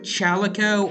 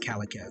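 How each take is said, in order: First: The word begins with a 'ch' sound. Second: The word begins with a 'k' sound. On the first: "There's an H, but I don't know if it that's supposed to be pronounced or not" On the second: "or just Calico"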